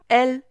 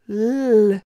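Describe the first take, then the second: First: A vowel is said before the L sound. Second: The L sound is said alone, without a vowel. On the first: This is the name of the letter. The speaker calls it wrong. "le son que produit cette lettre n'est pas L" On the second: This is the sound the letter makes. The speaker calls it right. "mais L"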